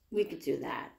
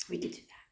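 First: Said in the usual way. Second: Soft whispered repeat. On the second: Real, not acted. Mother agreeing her baby can rest more, whispering. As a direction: breathe it out so she can rest.

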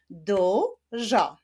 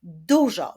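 First: "Dużo" in two separate drawn-out syllables; split into syllables. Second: Said in the usual way. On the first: Shown as a demonstration. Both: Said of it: "Wyklaszczmy sylaby w tym wyrazie".

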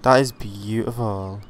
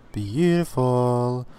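First: Said in the usual way. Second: "Beautiful" stretched slow and savoured; a slow, hushed, marvelling "Beautiful"; drawn-out admiring beautiful. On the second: Real, not acted. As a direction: linger on "Beautiful" as if in awe. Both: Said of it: "oh my god, that's beautiful".

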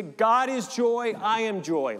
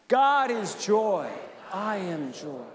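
First: High, loud, slow "God" stretched; joyful affirmation. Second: Joyful affirmation again. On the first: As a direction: lift "God" high and slow, full of joy. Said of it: "you can say". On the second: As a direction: stretch "God" out, let "I am joy" settle. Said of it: "Let's try that one". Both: Shown as a demonstration.

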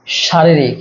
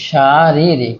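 First: Said in the usual way. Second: "শারীরিক" drawn out in separate syllables. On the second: Shown as a demonstration. Teacher showing students the spelling, "শারীরিক" sounded out syllable by syllable. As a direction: stretch each long vowel of "শারীরিক". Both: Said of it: "কোন বানানটি শুদ্ধ?".

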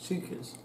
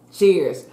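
First: Talking through a mouthful of food; garbled with food in mouth; mouth full. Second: Said in the usual way. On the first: Real, not acted. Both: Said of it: "I had food in my mouth".

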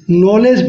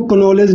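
First: नॉलेज said nolej with no k; नॉलेज with a silent k. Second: कनॉलेज with the k sounded, ka-nolej; कनॉलेज with a spoken k; wrong take with k. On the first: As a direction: start नॉलेज on the n. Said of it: "नॉलेज पढ़ते हैं". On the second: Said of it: "इसको कनॉलेज नहीं पढ़ते हैं". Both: Shown as a demonstration.

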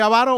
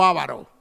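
First: "avaro" stressed on the first A, like ávaro; stress on first syllable. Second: "avaro" stressed on the middle syllable, a-VA-ro; stress on second syllable. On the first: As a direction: hit the opening A of "avaro". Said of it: "la que tiene la tilde en la primera". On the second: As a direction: lean on the VA in "avaro". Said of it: "¿Se dice avaro o avaro?". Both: Shown as a demonstration.

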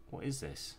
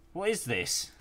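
First: Said in the usual way. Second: "What is this?" yelled high and loud; disgusted shout. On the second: Real, not acted. Gamer recoiling from something gross in the game, loud high shout. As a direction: blurt it out much higher and louder, repulsed.

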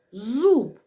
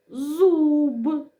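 First: Said in the usual way. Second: Зуб with a long, higher У; drawn-out single syllable. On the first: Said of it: "Поділимо слово на склади". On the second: Shown as a demonstration. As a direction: stretch зуб slowly through its vowel. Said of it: "Прикладаємо тильну сторону руки".

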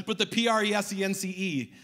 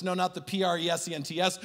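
First: PRESENCE spelled out letter by letter, ending on a long E. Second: PRESENTS spelled out letter by letter, quickly. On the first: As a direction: spell out P R E S E N C E one letter at a time. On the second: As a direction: spell out P R E S E N T S one letter at a time, fast. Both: Shown as a demonstration. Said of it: "try to say that three times fast".

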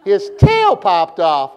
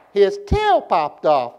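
First: Voice going up, emphatic. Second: Slow, with "tail" drawn out and swooping; exaggerated inflection. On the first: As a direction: leap up hard on "tail", fall on "off". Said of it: "You gotta go up now". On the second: Preacher teaching class a poem, exaggerated inflection. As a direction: stretch "tail" up, drop on "off". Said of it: "my voice goes up, y'all go up". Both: Shown as a demonstration.

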